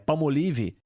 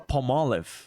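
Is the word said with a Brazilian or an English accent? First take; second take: Brazilian; English. First: It is said with a Brazilian Portuguese accent. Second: It is said with an English accent.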